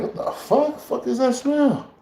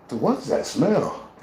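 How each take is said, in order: First: High, slow shriek of disgust; shocked disgust. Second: Said in the usual way. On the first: Real, not acted. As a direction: recoil at the stink in a high, drawn-out voice. Shocked by a burning skunk smell.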